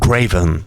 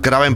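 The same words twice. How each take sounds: First: The name is said with English-style sounds. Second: The name is said with Spanish-style sounds. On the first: "estar diciendo Kraven, pues me resulta extraño" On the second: "A partir de aquí le voy a llamar Kraven"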